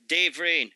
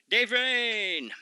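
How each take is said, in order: First: Said in the usual way. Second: Dave Rain called out high like a ring announcer; hyped name call. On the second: Shown as a demonstration. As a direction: belt out Dave Rain with a hype rise.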